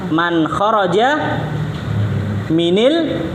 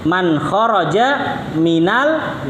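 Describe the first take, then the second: First: The linking vowel after min is 'i'. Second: The linking vowel after min is 'a'. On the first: The speaker calls it wrong. "Kalau dibaca kasroh jadinya apa? ... nggak enak" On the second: The speaker calls it right. "sukun ketemu sukun fathah"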